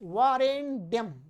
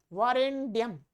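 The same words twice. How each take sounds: Both takes have the same delivery.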